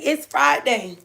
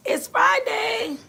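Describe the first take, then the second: First: Said in the usual way. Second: High and slow, "It's Friday" drawn out in a lilting tune; sing-song Friday. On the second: Real, not acted. Friday announced twice.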